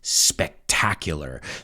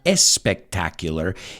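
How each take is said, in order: First: The word begins directly with the s sound. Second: An extra e vowel comes before the s. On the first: The speaker calls it right. "it's spectacular" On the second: The speaker calls it wrong. "It's not espectacular"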